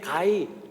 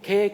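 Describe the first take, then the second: First: The word is drawn out into two syllables, dialect form. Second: The word is said as one syllable, standard form.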